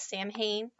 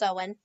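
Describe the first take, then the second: First: It is read as the English spelling suggests. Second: It is said with the Irish pronunciation. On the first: The speaker calls it wrong. "it looks like it should be pronounced as Samhain" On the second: The speaker calls it right. "In Ireland, it is pronounced Samhain"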